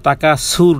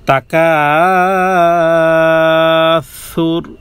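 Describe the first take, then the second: First: The consonant is a sharp hissing s sound. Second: The consonant is a soft lisped th sound. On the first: The speaker calls it wrong. "সিন কিন্তু না... তাকা সুর নয়" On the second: The speaker calls it right. "পাতলা নরম করে"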